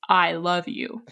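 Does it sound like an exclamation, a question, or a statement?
statement. It sounds like a plain, final statement.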